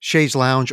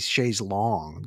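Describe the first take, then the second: First: The last word ends with an 'ow' vowel sound. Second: The last word ends with a short 'o' sound. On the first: "when we say Shay's Lounge" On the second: "they say Shay's Long"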